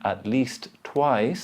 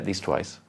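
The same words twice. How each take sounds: First: The T at the end of least is pronounced. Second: The T at the end of least is dropped. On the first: "instead of saying" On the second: "The first T disappears"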